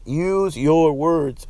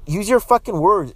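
First: "Use your words" spelled out very slowly, word by word; slow it right down like talking to a child; patient, drawn-out repeat; slow and deliberate. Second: Forceful, fed-up lecture; emphatic demand. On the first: Shown as a demonstration. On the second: Real, not acted. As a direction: snap it out, exasperated.

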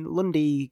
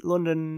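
First: London squashed into "Lundy"; "Lundy" for London, second n dropped; slurred London. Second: Said in the usual way. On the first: Shown as a demonstration. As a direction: say London as "Lundy", the ending worn down to a "dee". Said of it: "you just say it quicker, so it comes out as Lundy". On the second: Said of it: "Lundy is a London, uh, Cockney accent".

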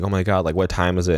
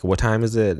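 First: Said in the usual way. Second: High, alarmed repeat of the question; panicked. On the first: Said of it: "She's like". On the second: Retold or imitated. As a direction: ask it again in rising panic. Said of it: "and she's like".

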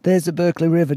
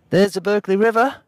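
First: Put-on more restrained character accent, somewhat high; lightly voiced sailor, slightly raised; Dave. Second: High, put-on accent, calling out; Dave. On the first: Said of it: "so I've got to do, like, a different kind of accent". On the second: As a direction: call it out in an exaggerated character accent. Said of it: "for Dave for his accent". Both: A narrator's reading.

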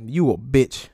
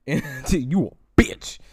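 First: Said in the usual way. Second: Very slow, laughing insult; laughing drawl. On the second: Real, not acted. Taunting Tory a second time, slow and laughing. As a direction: stretch it out through a laugh.

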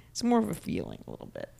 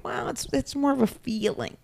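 First: Much lower, softer, put-on voice. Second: Said in the usual way. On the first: Shown as a demonstration. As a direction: drop the voice way down and soft.

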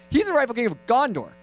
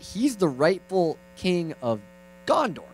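First: Quicker, higher-pitched insistence; mock over-keen uncle; insistent repeat. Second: Slow, spelled-out explanation with GONDOR pitched up; patient uncle explaining; careful teaching. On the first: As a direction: drive the point home to a child. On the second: Acted. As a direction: teach it slowly to a small child. Uncle first teaches nephew.

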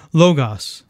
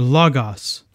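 First: Logos with a long o first, LOH-goss; alternative pronunciation. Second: Logos with an open first vowel, LAH-goss; alternative pronunciation. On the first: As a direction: say "logos" opening on LOH, as in low. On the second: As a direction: say "logos" opening on LAH, as in log. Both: Shown as a demonstration. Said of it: "or logos".

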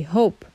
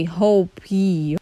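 First: "hope" with the e silent. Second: "hope" then a spoken e sound added; wrong sounding e. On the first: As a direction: end "hope" on the p. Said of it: "you say hope". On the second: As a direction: say "hope" plus a voiced e to show the error. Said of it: "You don't say hope, E". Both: Shown as a demonstration.

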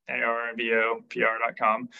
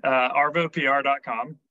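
First: "A R V O P R dot com" with each letter said separately; spelled out letter by letter. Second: Said in the usual way. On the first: Shown as a demonstration.

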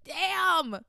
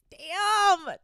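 First: Second loud damn. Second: A high, loud, falling "Damn!". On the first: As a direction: let it out a second time, still stunned. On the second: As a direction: blurt it out, stunned. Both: Real, not acted. Reacting to a gross confession.

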